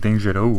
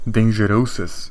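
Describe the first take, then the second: First: The final S sound is left silent. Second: The final S sound is clearly pronounced. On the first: The speaker calls it right. "I'm pretty sure it's like dangereux" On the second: The speaker calls it wrong. "it says dangerosis. But that's not how you say it"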